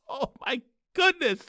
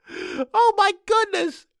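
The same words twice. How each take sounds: First: Said in the usual way. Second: Much higher, slow, dragged-out disbelief; exasperated. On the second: Acted. Host groaning at the audience, high and drawn out in disbelief. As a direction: stretch it out in mock despair.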